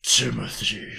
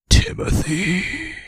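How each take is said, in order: First: Half-asleep murmur of the name; mild sleep-talk. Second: Name drawn out slowly and loud; eerie slow sleep-talk. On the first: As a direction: say it like you just woke up. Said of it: "I woke up one night". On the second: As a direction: say it wide-eyed, possessed. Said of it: "He said". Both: Retold or imitated.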